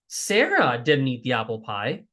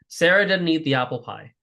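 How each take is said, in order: First: The word Sarah is stressed. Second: No single word is given special stress. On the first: Someone else ate the pie. "now the emphasis is Sarah didn't do it" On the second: A plain statement of fact. "it's a neutral sentence"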